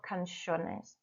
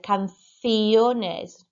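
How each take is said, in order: First: Canciones said can-SHO-nez, quieter; wrong English way. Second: Canciones said can-SYOH-nes; correct Spanish. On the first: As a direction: canciones with sh sound, anglicised. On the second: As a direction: canciones with clear s sound, louder. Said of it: "I should have said". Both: Shown as a demonstration.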